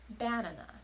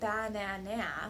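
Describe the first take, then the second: First: The stress is on the first syllable. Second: All three syllables are stressed equally. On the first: "putting the stress on the first syllable" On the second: "That would be stressing all three syllables"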